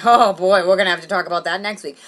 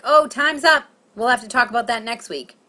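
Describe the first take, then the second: First: Put-on loud, heavy "oh boy"; imagined dismayed therapist. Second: Higher, louder professional cut-off; brisk therapist. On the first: Comic imagining therapist's alarm, dismayed. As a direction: hit the opening hard, as if dreading it. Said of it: "or did she say, like". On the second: Retold or imitated. Therapist ending the session, brisk. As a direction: close the session on a raised, breezy note. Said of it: "Did she say that normally".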